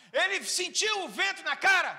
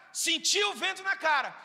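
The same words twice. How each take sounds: First: Said in the usual way. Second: Shouted answer. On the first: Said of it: "pergunta e resposta com a igreja". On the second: Shown as a demonstration. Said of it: "resposta enfática".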